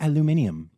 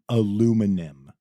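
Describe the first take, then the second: First: The word is said with five syllables. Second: The word is said with four syllables. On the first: This is the Australian form. The speaker calls it right. "you guys say a word correctly" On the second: This is the American form. The speaker calls it wrong. "in the U S we say very wrong"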